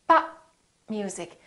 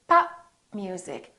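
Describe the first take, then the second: No difference in how they are said.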